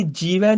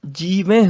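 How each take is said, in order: First: ਜੀਵੈ with a quick oral "vai"; wrong pronunciation demo. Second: ਜੀਵੈ with a nasal "vain" ending; nasal plural ending. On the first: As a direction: say ਜੀਵੈ with no nasal at the end. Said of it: "ਅੱਗੇ ਜੀਵੈ ਨਹੀਂ ਬੋਲਣਾ". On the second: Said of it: "ਇਸੇ ਤਰ੍ਹਾਂ". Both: Shown as a demonstration.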